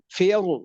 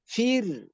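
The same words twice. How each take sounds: First: The r is pronounced heavy and thick. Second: The r is pronounced light and thin. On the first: "Boleh tabkhim" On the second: "Boleh tipis"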